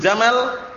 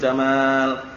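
First: The last vowel of jamal is short. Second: The last vowel of jamal is long. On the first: The word means camel. The speaker calls it wrong. "Kalau antum baca pendek" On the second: The word means beauty. The speaker calls it right. "Jadi panjang"

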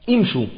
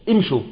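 The two takes are said the same way.

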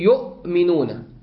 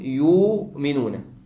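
First: A glottal stop follows the first vowel. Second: A long u vowel replaces the glottal stop. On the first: "الهمزة ساكنة وقبلها ضمة" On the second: "أبدلها ماذا؟ واو"

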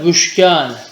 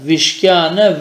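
First: The first syllable has the vowel u. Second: The first syllable has the vowel i. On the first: "bu da aynı şekilde" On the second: "bu da aynı şekilde"

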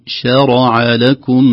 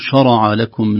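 First: The initial sh sound is light and thin. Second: The initial sh sound is heavy and thick. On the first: The speaker calls it right. "نقول شرع لكم من الدين، نراعي ترقيق الشين" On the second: The speaker calls it wrong. "فلا نقول شرع لكم"

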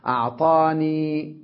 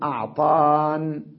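First: The word ends in 'ya' with a short 'a'. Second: The word ends in a bare 'n' sound. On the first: "ومنهم من يفتحها في الوصل فيقول، يفتح الياء ياء المتكلم" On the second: "وبعضهم يقول أعطان"

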